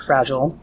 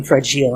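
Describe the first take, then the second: First: "Fragile" said FRAJ-ul; American accent pronunciation. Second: "Fragile" said fra-JEEL; alternate accent pronunciation. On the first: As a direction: say "Fragile" with a short, reduced second syllable. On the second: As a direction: say "Fragile" with a long ee in the second syllable. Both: Shown as a demonstration. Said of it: "depending on what accent I'm using".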